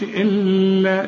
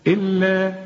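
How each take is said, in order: First: Sung, إلا with the doubled ل held too long; wrongly hummed lam. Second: إلا with a firm double ل, no hum; doubled lam. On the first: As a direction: linger and hum on the ل of إلا. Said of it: "لكن ما غنوش". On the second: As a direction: press the ل in إلا, then release into the vowel. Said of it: "طب ومشددة؟". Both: Shown as a demonstration.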